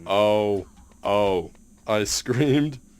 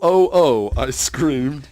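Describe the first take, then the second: First: It is read in a flat, robotic voice. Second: It is read in an ordinary, expressive voice. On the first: The speaker calls it right. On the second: The speaker calls it wrong.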